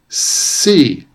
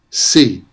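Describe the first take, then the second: First: The first sound is stretched out long. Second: The first sound is short and ordinary. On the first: "I'm making the sounds longer than they usually are" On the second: "what those words sound like in everyday pronunciation"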